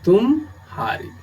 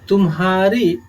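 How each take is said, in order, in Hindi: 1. दोनों भागों के बीच एक छोटा विराम है। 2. दोनों भाग बिना किसी विराम के एक साथ जुड़ते हैं। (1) "अगर हम इसमें विराम या अवसान की स्थिति उत्पन्न करेंगे तब यह शब्द बन जाएगा तुम हारे" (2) "तुम्हारे में विराम नहीं है"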